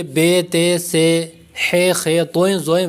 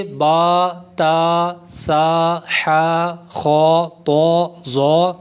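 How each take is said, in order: First: بے، تے، سے with Urdu "ay" endings; ہے، خے as everyday Urdu letter names. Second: با، تا، سا، حا drawn out with long open "aa"; خو، تو، زو held long, full-mouthed with rounded vowel; Arabic letter pronunciation. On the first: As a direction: say توئیں، زوئیں the Urdu way, with "o-ein" endings. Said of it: "Urdu تلفظ سے پرہیز کریں". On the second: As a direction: recite با، تا، سا slowly as Arabic letters, one by one. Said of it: "عربی لہجہ میں ادا کریں". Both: Shown as a demonstration.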